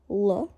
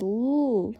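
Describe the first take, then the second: First: L said as one quick syllable; brief L, released at once; short L. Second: L held and drawn out; sustained L sound; long L. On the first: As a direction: cut the L very short. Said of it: "is a short one". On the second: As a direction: stretch the L into a long hum. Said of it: "is a long L". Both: Shown as a demonstration.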